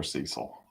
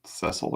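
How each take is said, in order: First: "Cecil" as SEE-sul, long first vowel; long-e pronunciation. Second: "Cecil" as SESS-ul, short first vowel; short-e pronunciation. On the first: Card opener weighing two pronunciations, SEE-sul "Cecil". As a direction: say "Cecil" with the ee of seed. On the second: Card opener weighing two pronunciations, SESS-ul "Cecil". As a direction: say "Cecil" with the e of mess. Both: Shown as a demonstration. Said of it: "How do you say it?".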